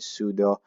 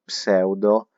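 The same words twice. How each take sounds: First: The word is pronounced the English way. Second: The word is pronounced the Italian way. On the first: The speaker calls it right. "I'll do my best to call it pseudo and make it look good" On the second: The speaker calls it wrong. "in Italian we write that word the same and we read it differently"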